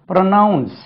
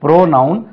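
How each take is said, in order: First: ப்ரொனவுன்ஸ் with a short "pruh", high then falling; ப்ரொனவுன்ஸ், weight on the second syllable; contrasting pronunciation. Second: ப்ரோனவுன் with a long "PRO", rising; ப்ரோனவுன், full first syllable; contrasting pronunciation. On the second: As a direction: say ப்ரோனவுன் as "PRO-noun", tune up. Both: Shown as a demonstration. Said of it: "வித்தியாசமான உச்சரிப்பு".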